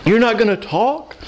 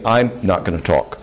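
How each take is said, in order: First: Mock dismay. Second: Said in the usual way. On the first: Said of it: "And I wanna go". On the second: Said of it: "I'm saying".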